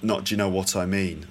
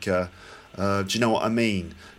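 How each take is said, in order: First: The T sound in 'what' is pronounced. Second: The T sound in 'what' is dropped. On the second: "you were sort of dropping the T sound"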